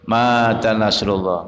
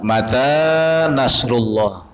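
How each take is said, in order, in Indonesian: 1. Vokal setelah m itu panjang. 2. Vokal setelah m itu pendek.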